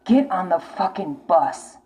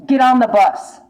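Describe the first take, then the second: First: Slow, deliberate repeat; slowed, heavy repeat of the order; slow insistence. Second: Louder, pushing order; loud insistent urging; urgent call. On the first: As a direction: spell it out slowly and firmly. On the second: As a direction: shout the command to get going. Urging viewer to leave. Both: Real, not acted.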